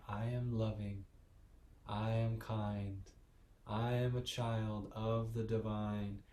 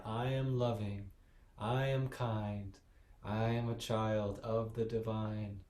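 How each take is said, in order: First: Said in the usual way. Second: Slightly louder, firmer affirmation; a bit louder. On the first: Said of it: "Say it with me". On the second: Shown as a demonstration. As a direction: say it with a little more confidence. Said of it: "say it louder".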